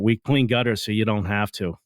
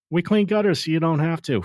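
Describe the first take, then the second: First: Said in the usual way. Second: Catchphrase delivered higher, like a radio ad; ad tagline voice. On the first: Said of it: "when you think about it". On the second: Shown as a demonstration. Host quoting the company's radio ad, upbeat. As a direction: pitch it up like the jingle line. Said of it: "catchphrases that are out there".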